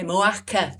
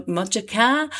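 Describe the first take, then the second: First: Moaca said with no middle sound, "Mo-a-ca"; Yorkshire dropped H. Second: Said in the usual way. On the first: Shown as a demonstration. Yorkshire host on air, saying Mojaca as "Moaca". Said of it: "'cause I've no H's in Yorkshire".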